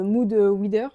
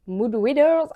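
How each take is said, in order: First: Said in the usual way. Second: Hammed-up attempt at an English accent; bad English accent. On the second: Shown as a demonstration. Book vlogger retrying an English term, in a catastrophic English accent. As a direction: overdo the English accent on "Mood readers". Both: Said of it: "mon accent anglais est catastrophique".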